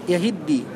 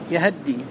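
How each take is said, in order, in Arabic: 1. الهاء عليها كسرة. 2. الهاء عليها فتحة كاملة. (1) "كسر الهاء على الأصل في التخلص وانتقاء الساكنين" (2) "فتح الهاء فتحة كاملة"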